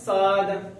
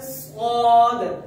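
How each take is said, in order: First: The consonant is said light and thin. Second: The consonant is said heavy and thick. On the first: "एक आवाज अगर मैं निकालूं" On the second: "मतलब आपने इस हर्फ को मोटा पढ़ना है।"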